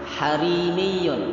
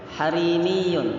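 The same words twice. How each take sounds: Both takes have the same delivery.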